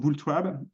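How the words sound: The name is pronounced with American English sounds. "ou l'américaine"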